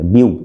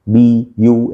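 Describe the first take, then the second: First: It is said together as one syllable. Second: It is broken into two separate syllables. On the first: The speaker calls it right. "ब्यू एक बार में बोला जाएगा" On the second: The speaker calls it wrong. "इसे तोड़ के नहीं बोल सकते, बी यू ऐसे नहीं बोल सकते"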